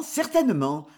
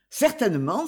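First: Said in the usual way. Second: A quick, eager certainement with a rising end; eager exclamation. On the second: A narrator's reading. Jérôme hastily reassures Guitou about repayment, eager rising certainement. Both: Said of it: "s'écria Jérôme".

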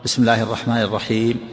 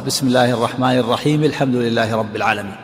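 First: "بسم الله الرحمن الرحيم" closed with a full stop on "الرحيم", then a pause; pause at verse end. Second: "الرحيم" rises and runs straight into "الحمد لله" with no break; connected recitation. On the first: Teacher showing the student the verse-end stop, "الرحيم" closed and halted. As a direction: recite "بسم الله الرحمن الرحيم" and halt completely after "الرحيم". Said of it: "الأولى القاء تقول".

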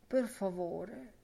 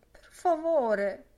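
First: Said in the usual way. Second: Louder, higher, slow imploring plea; pleading. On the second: Acted. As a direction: beg it, drawn out and rising. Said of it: "invocava fra ricorrenti frasi di devozione".

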